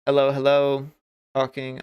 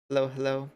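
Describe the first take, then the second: First: Louder, belting a mic test; loud mic check. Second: Said in the usual way. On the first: Shown as a demonstration. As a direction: call hello hard into the mic to check levels. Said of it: "I'm quite loud at this point". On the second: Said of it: "Let me lower myself down to this".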